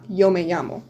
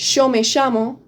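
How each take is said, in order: First: The double L is said as 'y', standard style. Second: The double L is said as 'sh', Argentine style.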